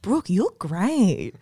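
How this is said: It is said in a suggestive, seductive tone. He is expressing sexual interest in her. "Those quotes could be read in a really, like, salacious way"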